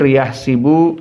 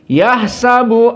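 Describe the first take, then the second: First: The s is followed by an i vowel. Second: The s is followed by an a vowel. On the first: This is one reciter's reading. "Ibnu Katsir yahsibu dikasrohkan sin" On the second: This is the other reciter's reading. "Maka di sini difathahkan"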